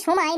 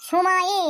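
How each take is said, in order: First: Said in the usual way. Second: সময়ে said slowly, leaning on the final এ; stressed ending. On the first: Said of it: "উচ্চারণ করার সময় কি হচ্ছে". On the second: Shown as a demonstration. Teacher showing students the final এ in সময়ে, slow and deliberate. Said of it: "একটি এ উচ্চারণ আসছে".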